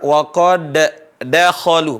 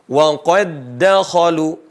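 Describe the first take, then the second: First: The first d is released with a bounce. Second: The first d merges into a doubled d. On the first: The speaker calls it wrong. "bukan dibaca" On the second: The speaker calls it right. "hilang dal yang pertama"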